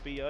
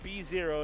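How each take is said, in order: First: The second part is said as the letter O. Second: The second part is said as the number zero. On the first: The speaker calls it wrong. "not B O" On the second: The speaker calls it right. "Announce it B zero"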